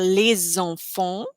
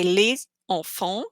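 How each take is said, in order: First: LES ENFANTS joined as one, with a Z sound linking them; linked French liaison. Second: LES ENFANTS split in two, S of LES silent; unlinked, no liaison. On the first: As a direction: run "les enfants" together, a Z opening the second word. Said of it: "connect the two words". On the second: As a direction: say "les" and "enfants" apart, with no linking Z. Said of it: "So you don't say". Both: Shown as a demonstration.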